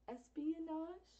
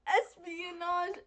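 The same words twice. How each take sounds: First: Said in the usual way. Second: Slowly sounding out Espionage syllable by syllable; drawn-out Espionage, each syllable spelled out; careful slow pronunciation. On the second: Shown as a demonstration. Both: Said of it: "We even practiced the word".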